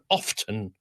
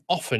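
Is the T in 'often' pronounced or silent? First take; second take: pronounced; silent. First: The word is said with the T pronounced. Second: The word is said with a silent T. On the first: The speaker calls it wrong. "she thought that there was that was a way that they thought it should be sounding" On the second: The speaker calls it right. "It's a silent T"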